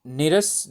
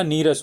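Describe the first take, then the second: First: निरस said with a short नि, marked as the wrong form; the wrong form निरस with a short vowel; wrong spelling said. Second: नीरस said with a long नी and a falling close; the correct form नीरस with a long vowel. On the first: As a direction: say निरस with a short i, to show the error. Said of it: "निरस नहीं होता". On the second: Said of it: "नीरस होता है". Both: Shown as a demonstration.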